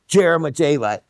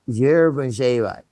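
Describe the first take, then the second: First: The word begins with a hard J sound. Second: The word begins with a slight J sound. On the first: The speaker calls it wrong. "with the hard J, which is absolutely the wrong" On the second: The speaker calls it right. "with a little bit of the sound of the J"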